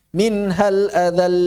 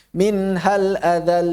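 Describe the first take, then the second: First: "min hal adal" with an overlong final l; imitating an imam's error. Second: "Min hal adal" slow, final l moderately held; correct recitation. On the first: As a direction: drag the last l of "adal" far too long. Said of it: "dengar ada imam". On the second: Shown as a demonstration. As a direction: end "adal" on a clear, contained l. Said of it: "Nggak gitu".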